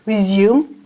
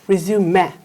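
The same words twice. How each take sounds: First: It is pronounced the way the verb sounds. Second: It is pronounced the way the noun sounds. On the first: It means to continue something. "if we are using this word as a verb, we will pronounce it resume" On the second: It means a document about one's career. "if you're using this word as a noun, we read this one resume"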